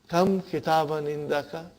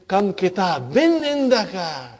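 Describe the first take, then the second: First: It is said as an asking question. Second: It is said with an amazed, surprised tone. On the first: The speaker wants to know the number. "from the first one, I do expect an answer" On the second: The speaker is amazed at how many there are. "I change my tone"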